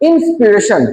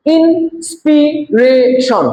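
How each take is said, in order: First: Said in the usual way. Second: ইন্সপিরেশন slow and higher, IN, SPI, RA, TION; four spaced beats on ইন্সপিরেশন; broken into syllables. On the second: Shown as a demonstration. Teacher shows four syllables to class, ইন্সপিরেশন split slowly. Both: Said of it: "চারবার উচ্চারিত হয়েছে".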